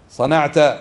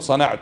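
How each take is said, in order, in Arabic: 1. تنتهي الكلمة بفتحة قصيرة a. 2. تنتهي الكلمة بضمة قصيرة u. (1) "والمخاطب ماذا يقال له؟" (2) "أحسنت متحدث، قلت صنعت"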